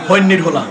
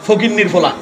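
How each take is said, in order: First: It is said in a Noakhali dialect accent. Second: It is said in a standard Bengali accent.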